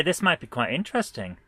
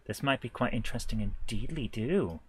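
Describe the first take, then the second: First: Said in the usual way. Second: Lower, softer musing to himself; quietly amused mock-quaint remark; playful musing. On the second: Real, not acted. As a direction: repeat it low and soft, with a silly lilt at the end. Repeats the remark in silly form.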